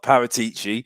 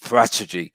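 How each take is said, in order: First: The name is said as Paratici. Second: The name is said as Parachegy. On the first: The speaker calls it wrong. "It's it's not Paratici" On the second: The speaker calls it right. "it's Parachegy. that's the way you pronounce it"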